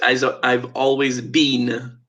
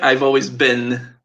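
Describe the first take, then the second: First: The word 'been' has a British pronunciation. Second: The word 'been' has an American pronunciation. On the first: "whereas the British English" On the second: "So in America"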